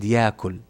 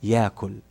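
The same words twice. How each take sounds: Both takes have the same delivery.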